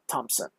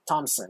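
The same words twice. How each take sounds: First: The name is said with a P sound. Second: The name is said without a P sound. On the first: The speaker calls it wrong. "It's not Thompson" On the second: The speaker calls it right. "You can't say the P"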